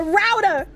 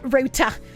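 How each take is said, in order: First: It is said with an American accent. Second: It is said with a British accent. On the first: The speaker calls it right. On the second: The speaker calls it wrong.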